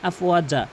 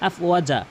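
The two takes are said the same way.

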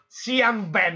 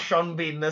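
First: The surname has a short 'e' vowel. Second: The surname has a long 'ee' vowel. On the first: The speaker calls it wrong. "ho voluto lasciare Sean Ben" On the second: The speaker calls it right. "si chiama Sean Bean"

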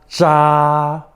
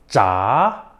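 First: It is said with the first tone. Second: It is said with the second tone.

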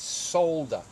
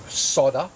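First: The L sound is clearly pronounced in the word. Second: The L sound is left out of the word. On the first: The speaker calls it right. "There's an L in it, and it's not a silent L" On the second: The speaker calls it wrong. "It's not solder"

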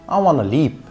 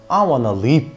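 First: The final P is held without an audible burst. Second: The final P is released with an audible burst. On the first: This is how an American speaker says it. "But Americans D will say" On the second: This is how a Scottish speaker says it. "Scottish D will say"

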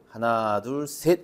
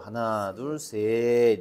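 First: The count is said quickly. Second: The count is said slowly. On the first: The speaker calls it wrong. "아니고" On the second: The speaker calls it right. "이렇게 느리게 세어야"

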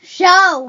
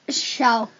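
First: It is said with the most energy. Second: It is said with more energy.

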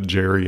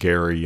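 First: The name begins with a soft j sound. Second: The name begins with a hard g sound. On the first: The speaker calls it wrong. "As a terrible pronunciation that sounds funnier in the modern era" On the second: The speaker calls it right. "I think it's more correctly pronounced Gary"

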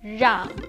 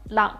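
First: The first consonant is a buzzing retroflex r. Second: The first consonant is a quick tongue flap. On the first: The speaker calls it right. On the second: The speaker calls it wrong.

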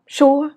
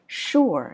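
First: The pitch stays flat and level. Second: The pitch rises and then falls. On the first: The speaker calls it wrong. "Sure là ngang phè phè đúng không?" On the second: The speaker calls it right. "Nhưng mà mình sẽ là sure. Nghe sang hơn không mọi người?"

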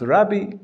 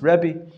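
First: The first vowel sounds like 'a'. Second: The first vowel sounds like 'e'.

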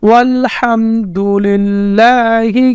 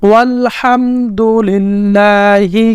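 Both takes have the same delivery.

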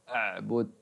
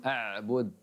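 The two takes are said the same way.

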